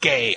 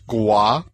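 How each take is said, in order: First: It is said like the plain word gay. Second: It is said with a gw sound, like gwah. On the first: The name is read as it is spelled. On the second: The owner avoids the plain reading of the name. "she pronounced it Gua"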